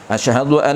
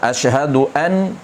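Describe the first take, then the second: First: The n sound merges into the following l. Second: The n sound is pronounced clearly and separately. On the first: The speaker calls it right. "Nun dia akan masukkan terus dalam lam" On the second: The speaker calls it wrong. "salah. Jangan izharkan nun"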